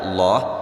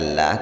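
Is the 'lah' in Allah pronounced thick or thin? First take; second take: thick; thin. First: The 'lah' is pronounced thick and heavy. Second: The 'lah' is pronounced thin and light. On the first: The speaker calls it right. "tapi dibaca Allah" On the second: The speaker calls it wrong. "tidak dibaca lah"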